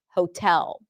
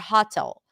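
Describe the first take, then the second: First: The first vowel is a long 'oh' sound. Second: The first vowel is open, like 'aw'. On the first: The speaker calls it right. "long O as in go and putting the stress on the second syllable" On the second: The speaker calls it wrong. "opening up to hotel"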